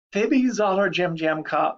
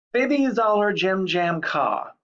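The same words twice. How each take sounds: First: Said in the usual way. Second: "Bibby Zoller Jim Jam Ka" said slowly and higher, syllables held apart; slow nonsense dictation. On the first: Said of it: "most students can repeat back". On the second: Shown as a demonstration. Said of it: "Seven syllables".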